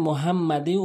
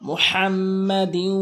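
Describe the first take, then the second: First: The h is a plain, light h sound. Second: The h is a deep, breathy throat sound. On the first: The speaker calls it wrong. "অনেকেই বলে" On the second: The speaker calls it right. "মুহাম বড় হা উচ্চারণ করতে হবে"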